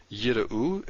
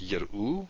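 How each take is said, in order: First: Yir'u with a held first syllable, yi-r'u; yir'u carefully split at the meteg; syllable break. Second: Yir'u run together as yir-u; yir'u with the first syllable closed by r; no syllable break. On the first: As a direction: pause after the first vowel of yir'u. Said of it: "so we have a syllable break there". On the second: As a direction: say yir'u without pausing after the first vowel. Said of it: "If we don't have it". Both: Shown as a demonstration.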